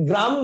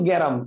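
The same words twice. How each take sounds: First: গ্রাম said with গ and র joined, no vowel between; joined cluster. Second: গ্যারাম with an extra vowel between গ and র; inserted vowel. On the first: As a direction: say গ্রাম as one tight syllable. (গ্রাম যুক্তবর্ণে এক টানে) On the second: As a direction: break গ্রাম into গ্যা-রাম. (গ আর র এর মাঝে স্বর ঢুকিয়ে গ্যারাম) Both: Shown as a demonstration. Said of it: "এটা একটু দেখাই দিচ্ছি".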